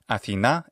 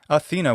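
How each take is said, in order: First: It is said with a modern Greek pronunciation. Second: It is said with an English pronunciation. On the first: "In modern Greek pronunciation" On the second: "we call her in English"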